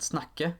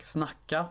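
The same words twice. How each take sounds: First: "snakke" ending in an E sound; Norwegian word. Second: "snacka" ending in an A sound; Swedish word. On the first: Narrator comparing Norwegian with Swedish, Norwegian pronunciation. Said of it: "the Norwegian equivalent snakke". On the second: Narrator comparing Swedish with Norwegian, Swedish pronunciation. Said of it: "kind of colloquial in Swedish". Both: Shown as a demonstration.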